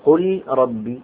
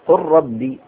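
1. تُنطق اللام منفصلة قبل الراء. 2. تُدغم اللام في راء مشددة. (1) "ولا تقل" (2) "فأدغمه في الثاني. فقل ربي"

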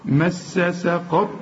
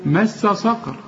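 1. السين في الكلمة الثانية خفيفة، مرققة. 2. السين في الكلمة الثانية ثقيلة، مفخمة. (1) "قل لي مس ساء" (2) "تقول لي صقر، ما هي سين برضه"

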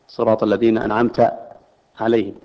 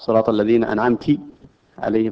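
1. التاء في anamt يتبعها a. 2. التاء في anamt يتبعها i. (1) "هي بالفتح بصيغة الخطاب" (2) "لأنه يحول الخطاب إلى مخاطب أنثى"

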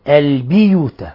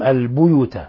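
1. تليها الباء حركة الكسرة 'i'. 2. تليها الباء حركة الضمة 'u'. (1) "بكسر الباء" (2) "بالضم"

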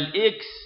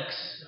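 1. تبدأ الكلمة بالصوت i. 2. تبدأ الكلمة بالصوت a. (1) "بكسرها ففي الإنجليزية" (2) "بفتح الهمزة"

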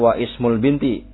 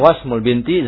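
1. Vokal i setelah wa dilafalkan terpisah. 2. Wa langsung menyambung ke s, i dihilangkan. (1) "jangan dibaca wa ismul binti, disalahkan" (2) "Tapi yang tepat adalah"

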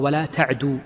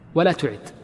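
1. يُقرأ الفعل ta'du، وينتهي بضمة طويلة. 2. يُقرأ الفعل ta'ud، بالفتحة ثم الضمة.

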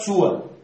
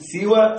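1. الحركة الأولى هي u: suwa. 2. الحركة الأولى هي i: siwa. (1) "أو ضم السين" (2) "بكسر السين"

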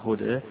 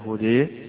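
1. الصوت الأخير مُمال قليلاً نحو e. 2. الصوت الأخير مُمال بقوة نحو e. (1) "بالتقليل" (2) "بالإمالة"

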